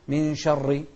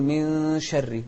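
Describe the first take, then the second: First: "من شر" with a thick, backed ra; wrongly heavy ra. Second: "من شر" with a light ra and hummed nun; thin ra. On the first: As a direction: darken the vowel and ra in "من شر". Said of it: "ما نقول". (تفخيم الراء خطأً في "من شر") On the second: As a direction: keep the ra of "من شر" thin, unrounded. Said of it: "مرققة، فنقول". (ترقيق الراء في "من شر" مع غنة) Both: Shown as a demonstration.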